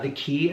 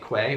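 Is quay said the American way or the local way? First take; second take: local; American. First: Quay is said with the local pronunciation. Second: Quay is said with the American pronunciation. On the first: This is how people there say it. "as they call it" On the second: This is how Americans say it. "which we do in America"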